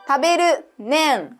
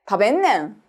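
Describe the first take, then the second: First: A full 'ru' syllable comes before 'nen'. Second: The 'ru' is reduced to 'n' before 'nen'. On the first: "るんだをる、ねんに変える言い方" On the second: "このるをね、んに変えてもいいです"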